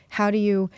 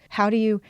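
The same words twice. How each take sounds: The two takes are said the same way.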